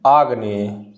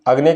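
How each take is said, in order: First: आग्नेय with a long आ at the start, said low and careful; corrected spelling. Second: Said in the usual way. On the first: Shown as a demonstration. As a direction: spell out आग्नेय slowly with a clear long first vowel. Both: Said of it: "अग्नेय की शुद्धि क्या हो जाएगी".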